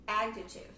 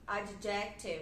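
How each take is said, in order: First: The stress is on the first syllable. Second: The stress is on the second syllable. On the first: The speaker calls it right. "em inglês, a primeira sílaba que é a sílaba tônica. Então, eu falo adjective" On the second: The speaker calls it wrong. "por influência da nossa língua... E quer falar adjective. Adjective, eu já ouvi muitas pessoas falarem"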